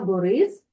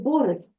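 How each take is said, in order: First: The stress is on the last syllable. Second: The stress is on the first syllable. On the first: This is how the learners usually say it. The speaker calls it wrong. "Ми кажемо" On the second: This follows the second-to-last syllable rule. The speaker calls it right. "але тут же буде Борис"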